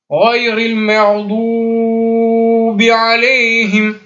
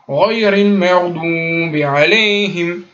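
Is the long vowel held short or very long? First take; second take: very long; short. First: The long vowel is stretched out far too long. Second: The long vowel is held for only two beats. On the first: The speaker calls it wrong. "On entend ça aussi" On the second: The speaker calls it right.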